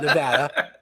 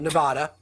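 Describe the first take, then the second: First: Nevada is said the way Westerners say it. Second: Nevada is said the way outsiders say it. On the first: The speaker calls it right. "I said that right for people who live in the West" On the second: The speaker calls it wrong. "I didn't call it Nevada"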